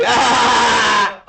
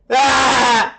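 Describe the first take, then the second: First: High, silly laughing shout; playful high laughter-therapy yelp. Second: High-pitched demonstrative "ah!"; laughter-therapy "ah", pitched up high; emotional "ah". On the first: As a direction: cry "ah!" goofily, breaking into laughter. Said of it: "Now make it silly". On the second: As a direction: let out an "ah" with exaggerated feeling. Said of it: "add a little emotion, a little frequency". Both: Shown as a demonstration.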